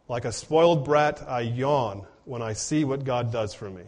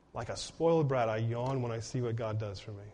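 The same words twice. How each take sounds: First: Said in the usual way. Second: Softer, lower, letting it sink in; soft repeat. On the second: Shown as a demonstration. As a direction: say it again quietly so it lands. Quote repeated softer for emphasis.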